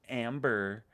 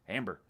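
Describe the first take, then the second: First: The final r is dropped in an Australian way. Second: The final r is pronounced in an American way. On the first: "But she goes Amber" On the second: "That's how you say Amber here in the U S"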